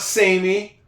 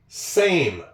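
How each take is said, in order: First: The final E is sounded as an extra syllable. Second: The final E is silent, one syllable only. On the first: The speaker calls it wrong. "It's not samey. Got another silent E" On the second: The speaker calls it right. "It's same"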